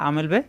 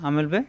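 No difference in how they are said.

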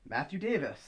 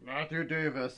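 First: It is said in a normal voice. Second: It is said in a low grumble.

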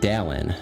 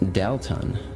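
First: The T sound in the middle is dropped. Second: The T sound in the middle is clearly stressed. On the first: The child says his own name. "he doesn't enunciate the T. He says Dallin, no T" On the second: The ghostly voices say the name. "always emphasizes the T. It's like Dalton"

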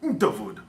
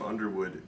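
First: It is said with a German accent. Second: It is said with a plain English accent.

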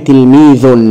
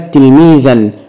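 First: The word ends in the sound 'un'. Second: The word ends in the sound 'an'. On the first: "بالضم" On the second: "بالفتح"

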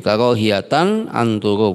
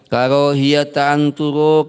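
First: The first word ends with an added n sound. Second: The first word ends without an n sound. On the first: The second word is the grammatical subject. "anturo ini jadi fa'ilnya boleh" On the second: The second word is grammatically possessed by the first. "lafal karohiyata menjadi mudhofnya"

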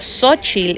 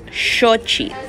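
First: The name does not begin with a 'sh' sound. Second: The name begins with a 'sh' sound. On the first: This is the common Spanish-influenced way people say it. "instead of Xochitl" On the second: This preserves the original Nahuatl sound. "actually sounds like SH"

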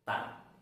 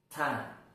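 First: The t sound is light and thin. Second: The t sound is heavy and thick. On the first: The speaker calls it right. "Yang betul ta, biasa ta, lebih tipis ya" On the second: The speaker calls it wrong. "Salah cara baca seperti itu"

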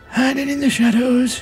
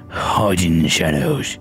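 First: It is read in a put-on character voice. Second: It is read in the speaker's normal voice.

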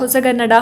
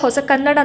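First: One joined word, the k sound becoming g. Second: Two separate words, the second starting with k. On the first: The speaker calls it right. "ಹೊಸಗನ್ನಡ, ಹಳೆಗನ್ನಡ ಅಂತಲೇ ಹೇಳ್ತೀವಲ್ವ" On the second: The speaker calls it wrong. "Usually pronounce ಮಾಡುವಾಗ ಹೊಸ ಕನ್ನಡ ಅಂತ ಹೇಳಲ್ಲ"

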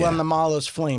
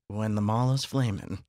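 First: It is said at a plain, ordinary pace. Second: It is said slowly in a sultry voice.

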